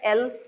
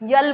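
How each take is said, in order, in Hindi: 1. अक्षर के नाम की शुरुआत सामान्य स्वर से होती है। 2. अक्षर के नाम की शुरुआत y की ध्वनि से होती है।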